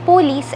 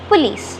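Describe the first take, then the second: First: The first syllable has a full 'oh' vowel. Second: The first syllable has a short 'uh' vowel. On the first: The speaker calls it wrong. "സാധാരണയായി പറഞ്ഞു വരുന്നത് പോലീസ് എന്നാണ്" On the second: The speaker calls it right. "Correct pronunciation വരുന്നത് പുലീസ്"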